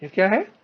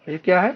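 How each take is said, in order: Both takes have the same delivery.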